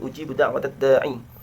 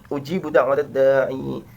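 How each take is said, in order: First: The final vowel is short. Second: The final vowel is long.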